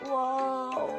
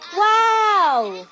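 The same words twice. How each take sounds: First: It is said in a sad way. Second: It is said in a happy way.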